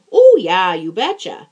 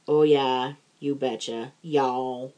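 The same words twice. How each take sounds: First: Light Minnesota "Oh, yeah, you betcha"; breezy Upper Midwest accent, imitating locals. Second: Minnesota "you betcha" with a Southern "y'all" drawl tacked on; mock Minnesotan then a Southern twang on "y'all"; Southern Minnesota mix. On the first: Friend mimics the Minnesota catchphrase, light Minnesota accent. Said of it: "the big sort of cultural response". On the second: Teasing her Southern friend's mashup catchphrase, mock accent. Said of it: "you've kinda modified it to".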